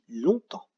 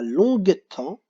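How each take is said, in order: First: No g sound is heard in the middle. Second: A g sound is heard in the middle. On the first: The speaker calls it right. "mais on dit longtemps" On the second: The speaker calls it wrong. "on ne dit pas longue-temps"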